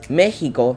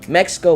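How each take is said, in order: First: The x is said as an h sound. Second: The x is said as a ks sound.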